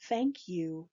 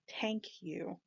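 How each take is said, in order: First: The first word starts with a 'th' sound. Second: The first word starts with a 't' sound. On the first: "the English T H sound" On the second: "It does not exist in Turkish. So thank you becomes tank you"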